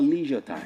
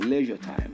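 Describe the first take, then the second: First: The first vowel differs from the one in pleasure. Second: The first vowel sounds like the one in pleasure. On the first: The speaker calls it wrong. "It's not leisure time" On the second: The speaker calls it right. "Like you want to pronounce pleasure"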